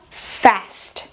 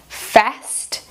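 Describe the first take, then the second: First: American accent with a short A as in cat. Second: American accent with a short A as in cat.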